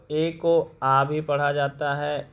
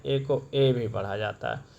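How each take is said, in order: First: ए said as a short आ, slow; ए voiced as आ, like uh; weak form uh. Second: ए voiced fully as ay; strong form ay. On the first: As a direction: say ए as a short uh sound. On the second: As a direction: say ए as the letter name ay. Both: Shown as a demonstration.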